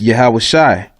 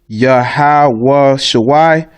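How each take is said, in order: First: The second word has one syllable. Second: The second word has two syllables. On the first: The speaker calls it right. "you take the the A off the end" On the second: The speaker calls it wrong. "That's wrong too. that's the wrong pronunciation"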